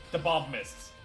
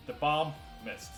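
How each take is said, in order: Both takes have the same delivery.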